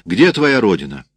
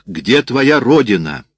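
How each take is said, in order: First: Said in the usual way. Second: Slow, loud question leaning on "твоя"; insistent repeat. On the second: A narrator's reading. Sergeant repeating to an uncomprehending woman, insistent stress on "твоя". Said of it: "Сержант повторил".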